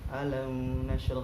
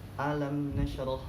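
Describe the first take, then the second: First: The m is blurred into the following n. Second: The m is pronounced clearly before the n. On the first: The speaker calls it wrong. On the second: The speaker calls it right. "dibaca dengan jelas mimnya"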